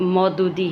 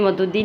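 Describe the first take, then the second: First: The first syllable has an 'au' vowel. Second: The first syllable has a short 'a' vowel. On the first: The speaker calls it right. "मौदूदी है" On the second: The speaker calls it wrong. "Sorry, ये मदूदी नहीं"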